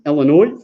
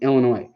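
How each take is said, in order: First: It is pronounced the way out-of-state people say it. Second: It is pronounced the way local residents say it. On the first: This is how people from elsewhere say it. The speaker calls it wrong. "everybody from not Illinois goes Illinois. Pronounce it wrong" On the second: This is how people who live there say it. The speaker calls it right. "people live in Illinois say Illinois"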